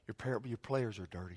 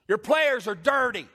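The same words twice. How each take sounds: First: It is said softly and very politely. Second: It is yelled loudly and forcefully. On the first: "I said it very politely" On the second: "I didn't yell it like that, but I just wanted you to"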